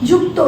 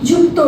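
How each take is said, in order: No difference in how they are said.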